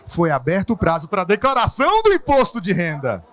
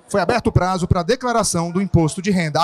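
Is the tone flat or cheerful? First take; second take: cheerful; flat. First: It is said in a cheerful, rising tone. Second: It is said in a flat, cold tone.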